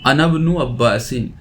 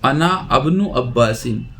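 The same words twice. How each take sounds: First: अनब्नु as one word, first vowel of इब्नु dropped; joined reading. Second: अना अब्नु as two separate words; unjoined reading. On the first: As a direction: run अना straight into ब्नु: अनब्नु. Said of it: "इसे दोनों को मिलाकर पढ़ेंगे". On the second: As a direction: restart on a at अब्नु after अना. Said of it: "तो अना अब्नु नहीं पढ़ेंगे". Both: Shown as a demonstration.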